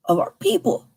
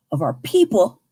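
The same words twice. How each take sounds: First: People said higher with rising tune. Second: People said low with falling tune. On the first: Repeating the charge, people rising higher. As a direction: lift people up high. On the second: Repeating the charge, people falling low. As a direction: let people drop down. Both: Shown as a demonstration. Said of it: "repeats the phrase".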